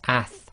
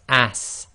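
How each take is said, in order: First: It ends with a soft th sound. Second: It ends with a hissing s sound. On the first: The speaker calls it right. "it's a th sound, so it's ath" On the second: The speaker calls it wrong. "they might pronounce this as as, and it's not a sa sound"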